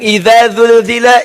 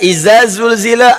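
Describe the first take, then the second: First: It uses distinct dh and z consonant sounds. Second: Every consonant is pronounced as a z sound. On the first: "ada yang idza zulzila"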